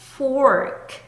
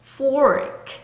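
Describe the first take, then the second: The two takes are said the same way.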